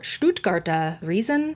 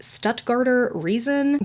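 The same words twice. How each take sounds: First: The name is said without an American accent. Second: The name is said with an American accent.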